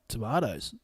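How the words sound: It is said in a New Zealand accent.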